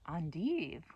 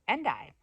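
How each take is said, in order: First: It is said the French way. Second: It is said the English way. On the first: "which is French" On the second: "I thought that was the only way you could pronounce it"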